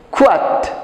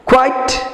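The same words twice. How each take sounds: First: কোয়াট with a short -at ending, kwat; quiet with at. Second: কোয়াইট with a clear -ait ending, kwait; quiet with ait. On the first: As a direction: clip কোয়াট to a flat at. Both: Shown as a demonstration. Teacher contrasting কোয়াইট and কোয়াট for pupils. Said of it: "ভালো করে খেয়াল করো".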